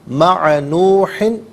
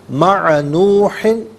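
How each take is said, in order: No difference in how they are said.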